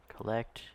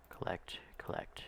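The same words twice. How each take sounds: First: Said in the usual way. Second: Whispered under the breath. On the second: Real, not acted. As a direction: whisper it to yourself. Chanting while collecting cargo.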